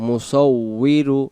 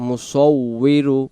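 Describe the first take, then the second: No difference in how they are said.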